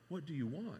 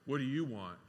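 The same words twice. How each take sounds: First: The question sounds warm and caring. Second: The question sounds annoyed and dismissive. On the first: The asker wants to serve and give. The speaker calls it right. "I think he says" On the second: The asker does not want to help. The speaker calls it wrong. "I don't think that's the tone Jesus had"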